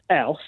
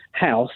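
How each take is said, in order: First: "house" with dropped h, like "ouse"; Cockney pronunciation. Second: Said in the usual way. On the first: Shown as a demonstration. Caller showing how he says "house", Cockney with dropped h. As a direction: say "house" Cockney-style, no h at the start. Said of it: "instead of saying house, I go house". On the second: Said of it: "You just can't pronounce things properly".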